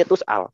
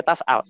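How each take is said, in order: First: "tus'al" bervokal U, nada rendah; dialek Waras. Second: "tas'al" bervokal A; dialek Hafes. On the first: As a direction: ucapkan TUS pada "tus'al", nada turun. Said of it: "Dialeknya Waras". ("tus'al" gaya bacaan Waras) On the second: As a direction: ucapkan TAS pada "tas'al". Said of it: "Dialeknya Hafes". ("tas'al" gaya bacaan Hafes) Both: Shown as a demonstration.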